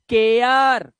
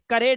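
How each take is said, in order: First: The vowel glides from eh to uh. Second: The vowel is a short plain e. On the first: The speaker calls it right. "एया" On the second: The speaker calls it wrong. "मत कर देना"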